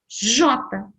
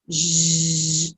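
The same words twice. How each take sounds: First: The full spoken letter name is produced. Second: Only the bare consonant sound is produced. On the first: "O nome da letra" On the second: "olha lá o som"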